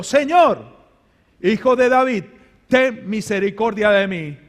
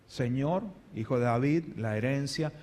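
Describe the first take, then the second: First: Desperate crying out; loud plea. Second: Low, soft, unimpressed asking; quiet, casual plea. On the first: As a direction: cry out, begging for mercy. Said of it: "hace un clamor". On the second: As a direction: lower and much softer, almost offhand. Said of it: "le hablaba como un ser humano". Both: Acted.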